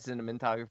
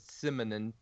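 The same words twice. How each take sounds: First: The m and n sounds are in normal order. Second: The m and n sounds are swapped. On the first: "He actually never said cinematography" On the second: "He reversed the M and the N"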